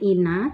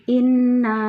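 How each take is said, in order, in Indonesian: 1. Bunyi n-nya pendek dan tunggal. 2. Bunyi n-nya ditahan dan dobel. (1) "bukan ina" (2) "tapi inna"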